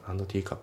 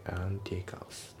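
First: Quick "and teacup" as "ando teacup"; D pronounced. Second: Slow, soft "and teacups" as "an teacups"; dropped D. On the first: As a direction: add a full "do" to "and" in "and teacup". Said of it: "じゃなくて". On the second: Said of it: "andのDが抜けますね". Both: Shown as a demonstration.

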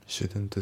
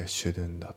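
First: "shouldn't the" with the T fully sounded; pronounced T. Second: "shouldn't the" with the T left out; dropped T. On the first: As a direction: say "shouldn't the" as separate words, releasing the T. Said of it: "じゃなくて". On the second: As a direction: run "shouldn't the" together as "shouldn-the", skipping the T. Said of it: "Tが抜けますね". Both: Shown as a demonstration.

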